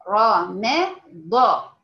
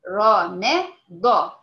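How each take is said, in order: The two takes are said the same way.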